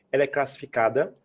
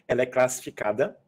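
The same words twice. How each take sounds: The two takes are said the same way.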